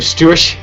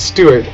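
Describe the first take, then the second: First: The middle consonant is a slushy CH sound. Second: The middle consonant is a clear T sound. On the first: The speaker calls it wrong. "sounds like someone has something in their mouth" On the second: The speaker calls it right. "actually pronounce the whole T"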